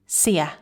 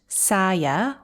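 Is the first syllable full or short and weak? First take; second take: weak; full. First: The first syllable is short and weak. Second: The first syllable has a full vowel. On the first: The speaker calls it right. "the first syllable is very short and weak" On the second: The speaker calls it wrong. "Not saya"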